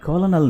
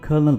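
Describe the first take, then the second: First: It is said with an l sound, like 'kolonel'. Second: It is said with an r sound, like 'kernel'. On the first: The speaker calls it wrong. "कॉलोनल नहीं" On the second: The speaker calls it right. "बल्कि इसको हम कर्नल बोलते हैं"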